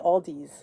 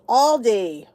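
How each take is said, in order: First: The name ends with an s sound. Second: The name ends without an s sound. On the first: The speaker calls it wrong. "I say Aldi's" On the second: The speaker calls it right. "I get corrected all the time. It's Aldi"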